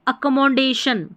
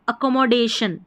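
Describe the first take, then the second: The two takes are said the same way.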